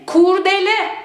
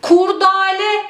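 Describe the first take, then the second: First: Kurdele with e in the middle; doğru telaffuz. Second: Kurdale with a in the middle; the wrong form Kurdale; yanlış telaffuz. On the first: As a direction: say Kurdele, de not da. (doğru söyleyiş: Kurdele) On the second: (yanlış söyleyiş: Kurdale) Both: Shown as a demonstration. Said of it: "Kurdale değil".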